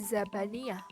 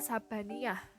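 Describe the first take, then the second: First: The word begins with a z sound. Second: The word begins with an s sound. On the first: The speaker calls it right. "seharusnya dibaca Zabaniyah" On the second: The speaker calls it wrong. "fonem Z diucapkan menjadi S"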